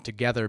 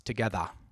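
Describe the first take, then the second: First: The word ends with an 'er' sound. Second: The word ends with an 'ah' sound. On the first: "our ers, as in together" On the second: "to ahs, so together becomes"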